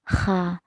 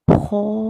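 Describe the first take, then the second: First: The vowel sounds like a full a. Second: The vowel sounds like a full o. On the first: "tidak dibaca a" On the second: "tidak dibaca o"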